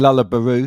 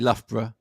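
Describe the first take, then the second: First: The name ends with a long 'oo' sound. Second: The name ends with a short 'uh' sound. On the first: The speaker calls it wrong. "that's a mistake that uh, so many people have made over the years" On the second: The speaker calls it right. "which is obviously Loughborough"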